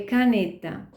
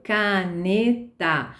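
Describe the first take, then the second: First: Said in the usual way. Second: Caneta read slowly, syllable by syllable, ca-ne-ta. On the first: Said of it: "Ou se ela lê caneta". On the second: Shown as a demonstration. Teacher imitates a child sounding out caneta very slowly. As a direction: sound out caneta like a beginner reader. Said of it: "aquilo que ela leu".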